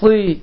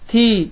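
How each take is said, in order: First: The t is heavy and thick. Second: The t is light and thin. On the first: "ta hərfini ifadə etdiyimiz zaman daha qalın formada çıxır" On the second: "T hərfinin məxrəci ilə bu hərfi fərqləndirsək"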